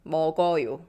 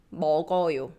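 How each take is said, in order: Both takes have the same delivery.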